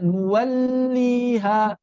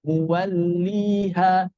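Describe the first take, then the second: First: 'muwalliha' with the l dragged, higher; wrong over-held lam. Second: 'Muwalliha' slow with a moderately held l; correct lam. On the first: Teacher shows the mistake, overflowing lam. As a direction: overstretch the l in 'muwalliha'. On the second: Teacher models it for students, correct lam. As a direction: hold the l in 'Muwalliha', smoothly connected. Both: Shown as a demonstration. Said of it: "bukan muwalliha".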